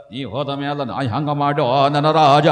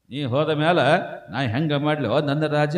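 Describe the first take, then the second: First: Sing-song widow's keening, swelling at the end; mock wailing lament. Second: Spoken replay of a widow's lament; understated mock lament. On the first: Widow beating herself before her dead husband, mock sing-song wail. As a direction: wail it mockingly, stretching the last word long. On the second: Preacher explains what the widow really mourns, understated spoken lament. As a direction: recite the lament with little wail. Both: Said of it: "ತನ್ನ ಹೊಟ್ಟೆ ಕಿಚ್ಚೆಗೆ ಅಳ್ತಾಳಕಿ".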